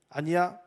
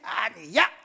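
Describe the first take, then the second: First: It is said softly and calmly. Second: It is said loudly and forcefully.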